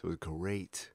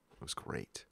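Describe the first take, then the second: First: Said in the usual way. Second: Breathy whispered repeat, much softer; whispered echo. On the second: Real, not acted. To the hosts, repeating it under his breath, whispered. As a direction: let it fade to a whisper.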